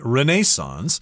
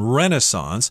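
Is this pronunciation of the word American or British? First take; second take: British; American. First: It is said with a British pronunciation. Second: It is said with an American pronunciation. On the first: "If you're talking to someone from England, they're likely going to say" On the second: "that's the American pronunciation"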